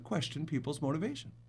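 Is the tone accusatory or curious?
curious. It is said in a curious tone. The questioning seeks to understand. The speaker calls it right. "it's okay to"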